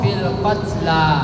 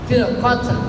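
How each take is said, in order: First: The word ends with a long a vowel. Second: The word ends on the consonant l. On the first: The written ya is read as a long alif. "maka dibaca panjang sebagaimana alif" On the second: This is how it would read without the final ya. "Maka kalau lam saja berarti lamnya disebut"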